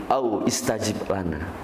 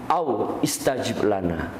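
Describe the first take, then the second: The two takes are said the same way.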